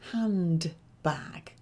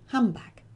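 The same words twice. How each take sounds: First: The first part is said clearly as 'hand' with a d sound. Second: The first part sounds like 'ham' with no d sound. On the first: This is how a learner expects it to sound. "What do you expect to hear?" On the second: This is how it really sounds in connected speech. "But what you actually hear is"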